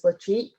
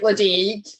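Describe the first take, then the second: First: The middle consonant is a sh sound. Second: The middle consonant is a d sound. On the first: The speaker calls it right. "It is Lashik" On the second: The speaker calls it wrong. "looks like Ladaig, but it's not"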